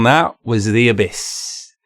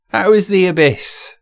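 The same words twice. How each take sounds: First: Slowed, weighty delivery; slow dramatic restatement. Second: Said in the usual way. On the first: Real, not acted. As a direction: let each word sink like a verdict.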